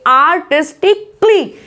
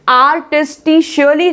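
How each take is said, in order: First: The ending is pronounced like 'kly'. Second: The ending is pronounced like 'shially'. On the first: The speaker calls it right. "क्ली करके आवाज आती है" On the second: The speaker calls it wrong. "आर्टिस्टिशियली नहीं बोलेंगे"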